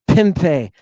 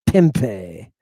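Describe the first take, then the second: The two takes are said the same way.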